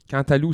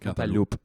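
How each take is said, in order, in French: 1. Le P final reste muet. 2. Le P final se prononce. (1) "ça a pas l'air bon" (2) "tu prononces le P à la fin"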